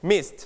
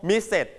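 First: "missed" as one syllable ending in a light T; light final T. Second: "misses" with a separate second syllable; wrong extra syllable. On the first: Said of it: "ให้มี ถ เบาๆ". (ออกเสียง "missed" พยางค์เดียว มี ถ เบาๆ ท้ายคำ) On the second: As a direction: say "misses" as two beats, sounding out the ending. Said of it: "เราจะไม่ออกเสียงว่าเสร็จ". (ออกเสียง "misses" ผิดเป็นสองพยางค์) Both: Shown as a demonstration.

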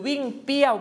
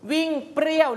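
First: เปรี้ยว said with plain p, no r; no r cluster. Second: เปรี้ยว with a clear r after the p; r cluster pronounced. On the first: Teacher reading out two word choices, เปรี้ยว without the r. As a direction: drop the ร from เปรี้ยว, like piao. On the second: Teacher reading out two word choices, เปรี้ยว with pr cluster. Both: Shown as a demonstration. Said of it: "วิ่งเปรี้ยวข้างบนจะไม่มี รอเรือเป็นตัวควบกล้ำ".

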